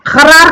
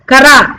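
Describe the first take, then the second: First: खरार with guttural first sound; nukta pronunciation. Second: Said in the usual way. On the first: Shown as a demonstration. Teacher asking about the dotted word, खरार from the throat. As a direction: open खरार on a throaty scrape, not a clean k. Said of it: "खरार किसे कहेंगे". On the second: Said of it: "ये हो गया खरार".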